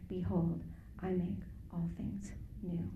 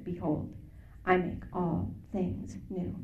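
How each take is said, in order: First: Hushed voice of God. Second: Slow, unhurried booming-voice imitation, a touch lower; deep voice of God. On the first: Retold or imitated. The voice speaking again in the parked car, whispered. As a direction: breathe it like a secret revelation. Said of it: "this voice said to me". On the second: Voice from the car speaker quoting Revelation, slow and solemn. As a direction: intone it slowly like a voice from the speaker. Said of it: "deep, like, Chuck Smith-like voice".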